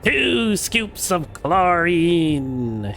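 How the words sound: It is said in a put-on witch voice.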